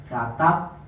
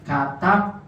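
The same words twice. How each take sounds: The two takes are said the same way.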